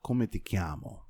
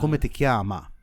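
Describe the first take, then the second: First: "chiamo" ending in an O sound; masculine ending. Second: "chiama" ending in an open A; louder demo of "chiama" with final A; feminine ending. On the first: Italian speaker teaching a man the phrase, demonstrating "chiamo". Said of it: "you're obviously a male". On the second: Teaching how to ask a female, stressing "chiama". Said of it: "you would use the A at the end". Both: Shown as a demonstration.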